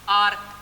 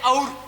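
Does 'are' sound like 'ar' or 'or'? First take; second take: ar; or. First: It sounds like 'ar', with an open vowel. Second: It sounds like 'or', with a rounded vowel. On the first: The speaker calls it right. "Real pronunciation उच्चारण होता है ना वो होता है आर" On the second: The speaker calls it wrong. "हम बोलते हैं और"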